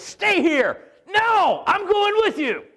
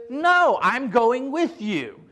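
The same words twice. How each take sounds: First: High, loud shouted argument; cavemen shouting. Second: Slow, firm and a bit louder; stubborn slow refusal. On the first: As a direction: bark it like stubborn cavemen. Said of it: "this is how they conversed". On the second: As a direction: drag each word out, unbudging. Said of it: "It was like cavemen almost". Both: Retold or imitated.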